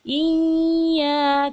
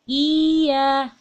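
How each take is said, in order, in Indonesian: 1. Bunyi y ditahan terlalu lama dan berdengung. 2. Vokal cukup dipanjangkan tanpa ditekan. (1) "terlalu lama sehingga dia menjadi dengung" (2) "jadi hanya dipanjangkan"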